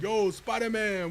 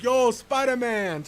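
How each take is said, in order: First: A light imitation of a coworker, slow and drawn out; imitating coworker. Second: Slow, drawn-out, higher and louder greeting; coworker greeting. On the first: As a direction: mimic the coworker's easy slow drawl. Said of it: "Sorry, I say it like him". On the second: Retold or imitated. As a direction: call it out lazily like a buddy at work. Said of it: "I say it like him".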